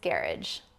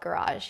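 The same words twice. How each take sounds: First: It is said with a British pronunciation. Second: It is said with an American pronunciation. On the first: The speaker calls it right. "It's garage" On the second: The speaker calls it wrong. "you can't call it garage"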